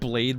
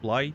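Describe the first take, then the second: First: The word is said in a neutral accent. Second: The word is said in an Australian accent. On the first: "Like Blade" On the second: "but Australian"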